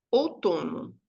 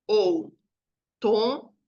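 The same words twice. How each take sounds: First: Said in the usual way. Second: Outono very slowly as ou, to, no, with pauses; syllable by syllable. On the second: Shown as a demonstration. Teacher separating Outono orally for the class, one slow syllable at a time. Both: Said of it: "Separei oralmente".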